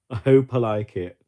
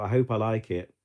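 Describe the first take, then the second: First: I hope I like it said much louder; a louder, eager echo of I hope I like it; louder emphatic repeat. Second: Said in the usual way. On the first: Real, not acted. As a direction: push the repeat out loud and eager.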